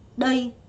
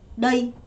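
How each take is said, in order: The two takes are said the same way.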